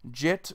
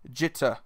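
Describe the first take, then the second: First: The final vowel is dropped with no emphasis. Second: It is quick with a light final vowel. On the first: The speaker calls it wrong. "you're either putting no emphasis on the E" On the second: The speaker calls it right. "It's very quick, There is like a slight pause in between the word. There is emphasis on the E, but it's not as much"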